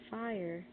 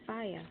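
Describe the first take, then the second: First: The final R is sounded. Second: The final R is dropped.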